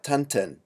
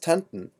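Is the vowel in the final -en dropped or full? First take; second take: full; dropped. First: The final -en has a full, clear e vowel. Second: The final -en is reduced, with no clear vowel. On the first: The speaker calls it wrong. "not tanten" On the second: The speaker calls it right. "The plural of tante is pronounced tanten"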